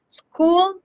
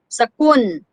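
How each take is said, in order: First: The word ends with an L sound. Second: The word ends with an N sound.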